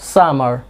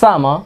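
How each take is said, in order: First: The final r sound is pronounced. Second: The final r sound is silent. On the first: "আরটাকে রেখে দিতে চান তাহলে রাখতে পারেন American" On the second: "British pronunciation maintain করে বলতে চান তাহলে কি এই যে আপনার আরটাকে সাইলেন্ট করে দিতে হবে"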